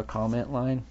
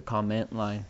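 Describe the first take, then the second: First: Said in the usual way. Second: Comment with the stress on its second syllable, com-MENT; wrong-syllable stress. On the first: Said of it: "instead of a comment line". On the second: Shown as a demonstration. Podcaster asking listeners to try it, stress on com-MENT. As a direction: say com-MENT line, leaning on MENT. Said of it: "take a word and then say it wrong".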